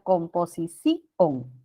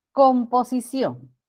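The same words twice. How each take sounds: First: "composición" with the I stressed and split from ON: com-po-si-CÍ-on; hiato marcado. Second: Said in the usual way. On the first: Shown as a demonstration. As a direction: break "composición" into a slow si-CÍ-on ending. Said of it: "que separar". ("composición" con la I tónica, separada: com-po-si-CÍ-on) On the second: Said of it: "y pronunciar composición".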